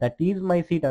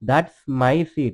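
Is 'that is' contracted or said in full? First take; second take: full; contracted. First: The words 'that is' are said in full. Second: The words 'that is' are contracted to 'that's'. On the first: "దట్ ఈజ్ my seat అంటున్నాడు" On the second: "దట్స్ అంటే అక్కడ ఏంటి? దట్ ఈజ్"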